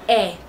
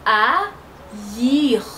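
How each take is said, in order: First: The two vowels merge into one sound. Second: The two vowels are said as separate sounds. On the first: The speaker calls it wrong. "Normalement, on peut dire R" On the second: The speaker calls it right. "ça fait haïr"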